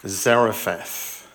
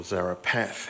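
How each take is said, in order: First: Zarephath with an F sound, "ZARE-uh-fath"; f pronunciation. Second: Zarephath with a P sound, "ZARE-uh-path"; p pronunciation. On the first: Pastor naming the place Elijah is sent, Zarephath said with F. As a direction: say Zarephath slowly, ph as F. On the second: Pastor offering another way to pronounce it, Zarephath said with P. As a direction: say Zarephath with the ph as a hard P. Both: Shown as a demonstration. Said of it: "however you want to pronounce it".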